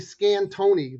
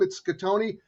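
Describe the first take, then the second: First: An n sound comes before the t. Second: No n sound comes before the t. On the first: The speaker calls it wrong. "people calling me" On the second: The speaker calls it right. "There's no N in my name"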